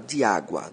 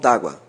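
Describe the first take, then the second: First: The vowel of 'de' is fully pronounced. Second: The vowel of 'de' is dropped and linked.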